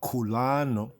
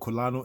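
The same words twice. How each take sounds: First: It uses a fuller, older-style pronunciation. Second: It uses a modern Hebrew pronunciation. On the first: "more of the ancient Afro-Shemitic. Right, full voice" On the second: "Some say in modern Hebrew"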